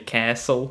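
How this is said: It is said in an American accent.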